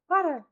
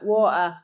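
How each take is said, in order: First: It is said in an Irish accent. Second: It is said in an Australian accent. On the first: "Or an Irish person as well" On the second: "Australian water"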